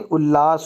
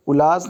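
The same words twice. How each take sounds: First: उल्लास as "ul-laas", double l; correct form. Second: उल्लास as "ulaas", single l; a short single l in उल्लास; wrong form. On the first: Teacher correcting it, उल्लास with doubled l. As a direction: hold the ll in उल्लास. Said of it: "उल्लास होता है". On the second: Teacher showing the mistake, उल्लास with one l. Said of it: "उल्लास नहीं". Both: Shown as a demonstration.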